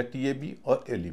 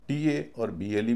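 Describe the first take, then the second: First: Slow spelling, "टी ए बी" together, then "और", then "एल ई" together; letters grouped three-two. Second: Slow spelling, "टी ए" together, then "और", then "बी एल ई" together; letters grouped two-three. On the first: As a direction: split after "बी", keeping "एल ई" as one group. ("टी ए बी" और "एल ई" को दो हिस्सों में धीरे-धीरे बोलें) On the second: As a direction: split after "ए", keeping "बी एल ई" as one group. ("टी ए" और "बी एल ई" को दो हिस्सों में धीरे-धीरे बोलें) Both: Shown as a demonstration. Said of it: "कैसे बांटें".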